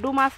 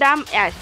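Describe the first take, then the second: First: The name is said as one word, 'doomas'. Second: The name is split into 'dum' and 'ass'. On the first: The speaker calls it right. "ডুমাস হবে" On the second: The speaker calls it wrong. "উদ্ভট উচ্চারণ"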